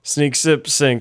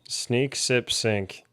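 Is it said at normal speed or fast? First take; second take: fast; normal speed. First: It is said quickly, in rapid repetition. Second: It is said at a normal, unhurried speed.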